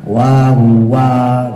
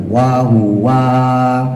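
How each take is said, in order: Both takes have the same delivery.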